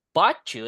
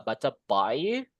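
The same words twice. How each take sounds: First: 'Baca' said 'bachu' with ch; assimilated ch. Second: 'baca bai' said slowly with flapped t. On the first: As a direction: merge into ch. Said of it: "dibaca banyak ya". ('Baca' dengan suara C) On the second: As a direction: say 'baca bai' slow, soft American t. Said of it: "British or American". ('baca bai' pelan dengan T lembut ala Amerika) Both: Shown as a demonstration.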